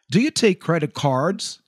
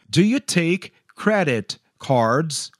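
First: It is said at normal speed. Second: It is said slowly.

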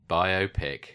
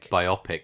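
First: It is said as 'bio' plus 'pic'. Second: It is said as 'bye-OP-ic', like biopsy. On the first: It is short for biographical picture. The speaker calls it right. "It's a biographical picture. Hence, okay. It's a biopic" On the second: It sounds like a medical procedure. The speaker calls it wrong. "Not a biopic, which sounds like a medical procedure"

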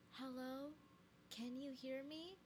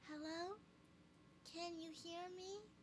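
First: It is said in the speaker's normal voice. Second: It is said in a little girl's voice.

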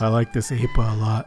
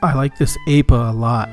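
First: It is read in a creepy, put-on voice. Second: It is read in a plain, natural voice.

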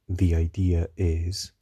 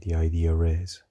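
First: It is said without an R after 'idea'. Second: It is said with a British linking R after 'idea'.

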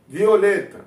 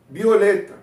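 Both takes have the same delivery.

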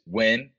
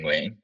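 First: The name is said with English-style sounds. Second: The name is said with Vietnamese sounds. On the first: "There's three ways to say it" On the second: "Or the Vietnamese way"

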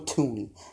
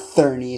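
First: The name begins with a plain t sound. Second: The name begins with a th sound. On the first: The speaker calls it right. "It's Joe Tooney" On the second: The speaker calls it wrong. "It's not Thurney"

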